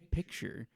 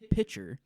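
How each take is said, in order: First: The word has a standard pronunciation. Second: The word has a rural, folksy pronunciation. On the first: "she didn't say picture" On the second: "She said what she normally says"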